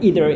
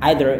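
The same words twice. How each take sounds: First: It is said with an American pronunciation. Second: It is said with a British pronunciation. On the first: "either itu adalah gaya Amerika" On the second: "either itu adalah gaya British"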